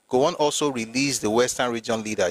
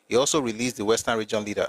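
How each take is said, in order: First: It is read slowly and deliberately. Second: It is read at normal speed.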